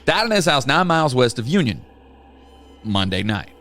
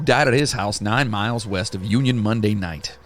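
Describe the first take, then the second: First: There is a pause between Union and Monday. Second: There is no pause between Union and Monday.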